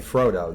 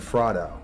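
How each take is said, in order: First: Frodo is said the usual modern way. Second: Frodo is said the older, different way. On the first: This is how most people say it today. "They didn't say Frodo" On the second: This is how an earlier generation said it. "they said Frodo"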